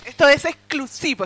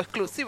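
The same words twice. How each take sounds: First: Louder, higher promo-style hype on exclusivo; a bit louder and higher, announcing an exclusive; hyped announcement. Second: Softer repeat of exclusivo, trailing after the hype; a quiet little afterthought repeat; soft echo. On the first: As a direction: sell it like a big reveal. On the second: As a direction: echo the word under your breath. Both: Acted. Hyping exclusive material.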